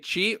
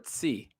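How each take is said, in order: First: The syllable begins with a 'ch' sound. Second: The syllable begins with a 'ts' sound. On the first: "do you say chi or tsi?" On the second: "do you say chi or tsi?"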